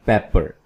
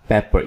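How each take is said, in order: First: पेपर with a short open "e", as in "pet"; correct pronunciation. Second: पेपर with a long "ay" first vowel, like "paper"; wrong pronunciation. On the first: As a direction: say पेपर as English "pepper", PEP-per. (पेपर का सही उच्चारण, छोटी खुली "पै" ध्वनि) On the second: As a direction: mispronounce पेपर as English "paper", PAY-per. (पेपर का गलत उच्चारण, "पे" की लंबी ध्वनि) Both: Shown as a demonstration. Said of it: "ये पेपर नहीं है".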